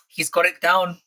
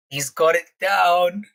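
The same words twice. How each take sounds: First: Said in the usual way. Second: "He's got it down" drawn out slowly for emphasis; slow, emphatic "He's got it down", lifting on "down"; emphatic repeat. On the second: Real, not acted. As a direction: stretch out "down" with a rising end.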